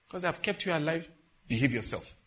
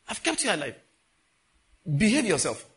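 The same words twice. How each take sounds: First: Said in the usual way. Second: High, loud acted rebuke; forceful warning. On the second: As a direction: repeat the warning with force, louder on the last words. God's warning repeated with force.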